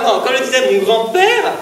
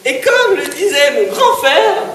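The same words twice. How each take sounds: First: Says grand-père clearly, setting it right; plain correction; corrected word. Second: Says grand frère by mistake, with a laugh; laughing at own slip; slip of the tongue. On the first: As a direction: fix the slip with grand-père. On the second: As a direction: trip over the word frère. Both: Real, not acted. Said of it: "euh, non".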